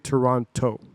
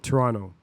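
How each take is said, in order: First: The second T is clearly pronounced. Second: The second T is dropped. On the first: The speaker is not really from the city. "people that are from Toronto do not say Toronto" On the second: The speaker is actually from the city. "They say Toronto. You don't pronounce the second T"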